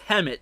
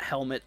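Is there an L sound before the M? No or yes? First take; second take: no; yes. First: It is said without an L sound. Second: It is said with an L sound. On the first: The speaker calls it right. "It's not Helmet. It's Hemet here" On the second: The speaker calls it wrong. "Not Helmet. I called it Helmet earlier"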